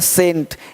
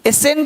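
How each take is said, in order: First: The word starts directly with an s. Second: The word starts with a vowel before s. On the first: The speaker calls it right. "बोलेंगे सेंट" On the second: The speaker calls it wrong. "एसेंट नहीं बोलते है ना"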